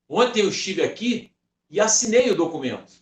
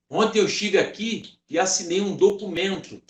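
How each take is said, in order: First: The stress is on "assinei". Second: The stress is on "documento".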